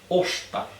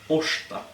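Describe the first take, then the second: First: The r and s merge into one sh sound. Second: The same.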